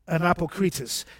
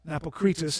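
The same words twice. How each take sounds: First: The word is said slowly and carefully. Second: The word is said quickly and run together. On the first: "listen carefully" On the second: "If you were to say that fast"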